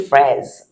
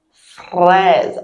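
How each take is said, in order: First: Fraise with a simple English-like R; the easy fraise without the French R; fraise, plain R; easy R take. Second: Fraise with a throaty French R; fraise, uvular R. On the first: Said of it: "you can just say fraise". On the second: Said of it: "See how I said it?". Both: Shown as a demonstration.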